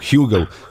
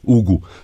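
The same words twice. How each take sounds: First: The name is said with an English pronunciation. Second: The name is said with a Portuguese pronunciation. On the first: The name is adapted for a foreign listener. "it was for you" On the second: This is how the speaker really says the name. "if I say it with the Portuguese pronunciation, I'll just sound like an angry gorilla"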